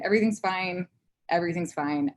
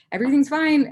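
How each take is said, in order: First: Said in the usual way. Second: Loud, high mock-frantic insistence; overdone strained cheerfulness; forced reassurance. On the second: Retold insisting through tears.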